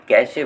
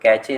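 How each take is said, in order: First: The middle consonant is an 'sh' sound. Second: The middle consonant is a 'ch' sound. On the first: The speaker calls it right. "कैशे बोलते हैं। मतलब श आता है इसका" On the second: The speaker calls it wrong. "इसको कैचे नहीं"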